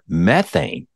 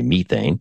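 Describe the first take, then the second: First: It is said in an American accent. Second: It is said in a British accent.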